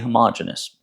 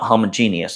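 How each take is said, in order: First: It is said as homogenous. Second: It is said as homogeneous. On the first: This is the pronunciation someone else recommended. The speaker calls it right. "You told me that's how you pronounce that" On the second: This is the pronunciation learned in school science. The speaker calls it wrong. "Not homogeneous, although I, that's how I learned it in in science"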